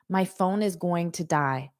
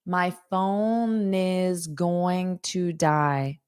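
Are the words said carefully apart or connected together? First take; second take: connected; carefully apart. First: The words run together quickly and smoothly. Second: Each word is said slowly and separately. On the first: The speaker sounds like a native speaker. The speaker calls it right. "here's how a native will say it" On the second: The speaker is still learning the language. The speaker calls it wrong. "That's how a beginner will say it"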